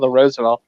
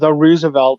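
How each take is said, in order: First: Roosevelt is said with the standard pronunciation. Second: Roosevelt is said with the local pronunciation. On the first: This is how outsiders say the name. "instead of the Roosevelt" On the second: This is how locals say the name. "as we call it down here, the Roosevelt"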